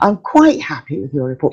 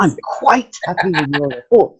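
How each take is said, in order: First: Quite is stressed, sounding lukewarm and British. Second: It sounds American and genuinely, really happy.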